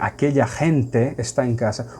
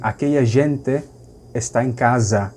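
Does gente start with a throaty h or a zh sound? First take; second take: throaty h; zh. First: Gente starts with a harsh throaty h sound. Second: Gente starts with a soft zh sound. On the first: This is how Spaniards say it. "O G terminou virando re em espanhol" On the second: "conservam o som da letra G como G"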